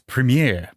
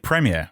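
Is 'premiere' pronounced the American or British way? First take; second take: American; British. First: It is pronounced in an American way. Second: It is pronounced in a British way. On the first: "Nick and Greg were like, "Premiere, premiere." I can't even say it properly" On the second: "I say premiere"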